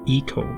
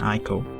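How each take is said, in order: First: The word begins with an 'ee' sound. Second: The word begins with an 'eye' sound. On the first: The speaker calls it right. "the actual pronunciation is Eco" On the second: The speaker calls it wrong. "rather than Ico"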